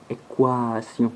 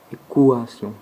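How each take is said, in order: First: Équation said slowly, syllable by syllable; slow demo word. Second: Équation repeated louder with a falling end; firm second Équation; louder demo word. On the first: Teacher modelling a word for learners, slow demo. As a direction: spell out Équation gently. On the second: Teacher repeating the example word, louder demo. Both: Shown as a demonstration. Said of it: "comme dans le mot équation".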